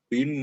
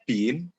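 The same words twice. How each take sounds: First: The n merges into the following m with nasalization. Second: The n sound is pronounced clearly and separately. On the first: The speaker calls it right. "tapi bin bin mimma" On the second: The speaker calls it wrong. "Jadi bukan dibaca bin"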